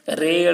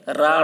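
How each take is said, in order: First: The letter name ends in an e-like vowel. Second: The letter name ends in an aa-like vowel. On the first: The speaker calls it right. "मजहूल पढ़ा गया है" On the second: The speaker calls it wrong. "इस तरीके से मारूफ नहीं पढ़ा गया"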